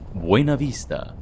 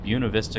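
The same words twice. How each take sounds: First: The name is said with a Spanish pronunciation. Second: The name is said with an English pronunciation. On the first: The speaker is new to the area. "people are going to know you're new" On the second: The speaker is a local. "I know it's not the proper Spanish pronunciation"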